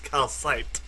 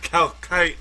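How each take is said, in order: First: The second c sounds like an S. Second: The second c sounds like a K. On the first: The speaker calls it right. "Maybe the second C is pronounced as an S" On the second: The speaker calls it wrong. "it's not calcite"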